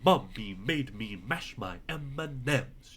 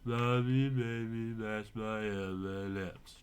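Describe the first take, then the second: First: The words are spoken very clearly and distinctly. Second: The words are mumbled and run together. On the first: The speaker calls it right. "with very, very clear voice like this" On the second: The speaker calls it wrong. "easy to sort of mumble through like this"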